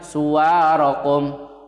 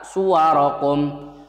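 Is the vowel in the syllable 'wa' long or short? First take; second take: long; short. First: The vowel in 'wa' is drawn out long. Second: The vowel in 'wa' is short. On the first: The speaker calls it wrong. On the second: The speaker calls it right.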